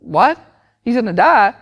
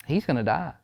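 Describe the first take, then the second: First: High, loud disbelieving parent; mock shock. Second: Soft, grave doctor's verdict; mock sad. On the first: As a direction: act out a stunned, raised-voice question. Acted parent shocked by doctor's news. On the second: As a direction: deliver grim news quietly, lightly acted. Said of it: "very sad and goes".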